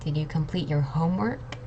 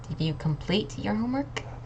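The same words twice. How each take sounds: First: The word "homework" is stressed. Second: The word "complete" is stressed. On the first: "and homework"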